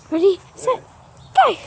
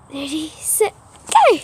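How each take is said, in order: First: Said in the usual way. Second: Excited start call. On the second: Real, not acted. Starting a game, go shouted.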